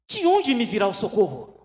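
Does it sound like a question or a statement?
question. It is said as a real question.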